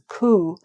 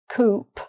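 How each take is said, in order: First: The word ends without a P sound. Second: The final P sound is pronounced. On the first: The speaker calls it right. "that letter would not be pronounced, the P" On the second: The speaker calls it wrong. "there's a P on the end of that, but it's not coupe"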